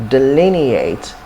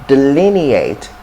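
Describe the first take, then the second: The two takes are said the same way.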